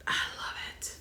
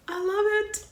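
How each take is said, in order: First: Unvoiced soft whisper; whispered love it. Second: Much higher, a bit louder, giddy; high excited squeal. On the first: Vlogger whispering her love for the shirt, hushed. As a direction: whisper it like a secret. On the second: Vlogger gushing over her goddess shirt, squealing. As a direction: squeal with joy. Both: Real, not acted.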